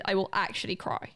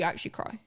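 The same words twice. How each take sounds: First: Said in the usual way. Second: Breathy whispered fear of crying. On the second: Real, not acted. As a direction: whisper it, half joking. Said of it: "I fear I will actually".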